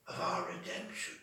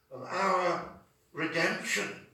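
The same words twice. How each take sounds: First: Soft whispered repeat of "of our redemption"; whispered echo. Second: Slow, stress on "our"; emphatic. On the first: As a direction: breathe the phrase back as a hushed echo. Echo of the same phrase. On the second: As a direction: lean on "our" in "of our redemption". Phrase said then echoed. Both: Shown as a demonstration.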